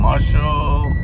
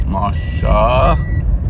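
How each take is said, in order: First: Talking round Tic Tacs, mouth propped open; mouth full. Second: Said in the usual way. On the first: Real, not acted. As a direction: say it with candy in your mouth. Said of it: "That's how you say it with the TikToks in my mouth". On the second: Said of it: "I mean".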